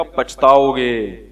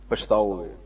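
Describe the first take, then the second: First: Slow, drawn-out ominous warning. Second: Soft repeated warning. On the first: Cleric warning a father about a school, slow and ominous. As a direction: stretch each syllable like a threat. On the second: Cleric repeating the warning to the father, quietly fading. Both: Retold or imitated. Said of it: "میں نے کہا".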